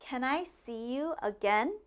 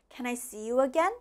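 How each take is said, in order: First: It is said at a normal, slower pace. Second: It is said at a faster pace.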